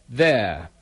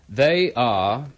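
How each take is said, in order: First: It is said as one short syllable. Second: It is said as two full syllables.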